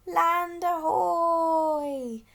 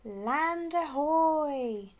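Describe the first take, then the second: First: Long, slow, higher and louder bird squawk. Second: Long, drawn-out call, higher and louder; shouted. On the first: Snow petrel announcing land, long loud squawk. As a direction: squawk it like a seabird. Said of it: "squawked the snow petrel". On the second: Rossi spotting land, a long shout. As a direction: call it out across the sea. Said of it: "shouted Rossi". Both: A narrator's reading.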